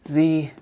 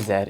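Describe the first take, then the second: First: The letter is said the American way. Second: The letter is said the Canadian way.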